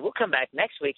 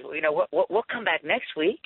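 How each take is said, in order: First: Said in the usual way. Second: Joking voice. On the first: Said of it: "As soon as he said". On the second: Retold or imitated. Larry jokes with waitress.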